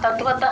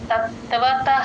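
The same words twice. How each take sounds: First: The first t sound is short and single. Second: The first t sound is held and doubled. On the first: The speaker calls it wrong. "ప్లేన్ గా కాకుండా" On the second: The speaker calls it right. "తత్ అని add చేసుకొని"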